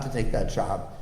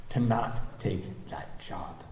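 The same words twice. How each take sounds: First: Said in the usual way. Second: Slow, breathy whispered resolve; soft slow whisper on not take that job. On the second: Real, not acted. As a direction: hush it, slowly, like a confession. Quiet resolve, not taking job.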